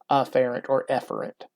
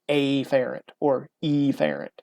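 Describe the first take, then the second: First: The first vowel of each word sounds ordinary. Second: The first vowel of each word is exaggerated. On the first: The two words sound nearly alike. "Normally it is" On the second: The two words are kept clearly apart. "be really, really stressed on that first letter"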